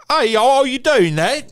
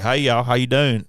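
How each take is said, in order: First: Loud, very high English chirp; Mary Poppins-style British accent. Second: Southern accent. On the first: Host demonstrating a thicker English accent, loud high British voice. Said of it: "like, Mary Poppins kinda". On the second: Host showing how easily he slips into regional voices, Southern accent. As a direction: drop casually into a Southern accent. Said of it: "get into a Southern accent". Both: Shown as a demonstration.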